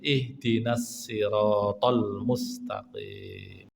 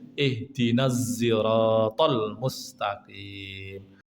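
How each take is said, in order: First: The word 'sirat' begins with a plain s. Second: The word 'sirat' begins with a z sound. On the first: "yang agak ringan yaitu pakai sin" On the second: "Ada juga yang pakai zain"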